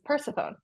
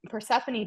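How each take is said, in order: First: The name is said with a French pronunciation. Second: The name is said with an American pronunciation. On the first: "but in France, it's Persephone" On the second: "in America, we say Persephone"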